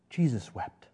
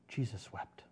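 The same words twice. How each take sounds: First: Said in the usual way. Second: Much softer, near a hush; softly repeated, almost breathed. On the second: Shown as a demonstration. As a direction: let it fall away quietly.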